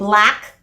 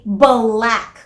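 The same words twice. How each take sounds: First: B and L are joined with no vowel between. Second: An extra vowel is inserted between B and L. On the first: "instead of saying" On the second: "nagkaka-extra a sound in the middle"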